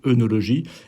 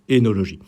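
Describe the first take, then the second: First: The first vowel is a rounded 'eu' sound. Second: The first vowel is an unrounded 'é' sound. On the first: This is how almost everyone says it. The speaker calls it wrong. "on le prononce quasiment tous œnologie" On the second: This is the real pronunciation. The speaker calls it right. "la réelle prononciation, c'est énologie"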